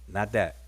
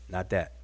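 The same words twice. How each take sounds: No difference in how they are said.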